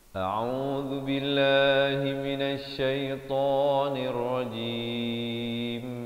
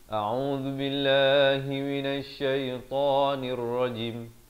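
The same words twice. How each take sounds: First: The final syllable is held long. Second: The final syllable is cut short. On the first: The speaker calls it right. "mestilah jim sekurang-kurangnya dua harakat" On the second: The speaker calls it wrong. "Jangan waqaf dengan ... Itu tak betul"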